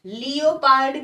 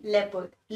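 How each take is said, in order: First: लियोपार्ड said as lee-o-pard, spelling-style; wrong pronunciation. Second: लेपर्ड said as two syllables, lep-erd; correct pronunciation. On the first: Teacher showing students the wrong reading, लियोपार्ड as lee-o-pard. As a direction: sound out लियोपार्ड in three syllables, lee-o-pard. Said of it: "Leopard is not the pronunciation". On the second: Teacher giving students the right reading, लेपर्ड as lep-erd. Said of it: "लियोपार्ड के पे नहीं". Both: Shown as a demonstration.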